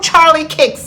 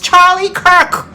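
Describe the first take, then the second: First: The surname is said like 'Kicks'. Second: The surname is said like 'Kirk'. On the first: The speaker calls it wrong. "There is no Charlie Kicks" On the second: The speaker calls it right. "It is Charlie Kirk"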